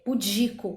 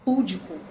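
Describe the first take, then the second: First: The stress is on the second syllable. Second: The stress is on the first syllable. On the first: The speaker calls it right. "que seria a pronúncia correta" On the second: The speaker calls it wrong. "mas a gente fala púdico"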